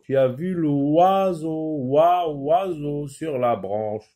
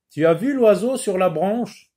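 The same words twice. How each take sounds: First: Slow reading, stretching the "wa" in "oiseau"; drawn-out sound. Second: Said in the usual way. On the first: Shown as a demonstration. Teacher showing pupils the wa sound, "oiseau" slowly stretched. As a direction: linger on the "oi" of "oiseau" so the wa stands out. Re-reads, drawing out the target sound.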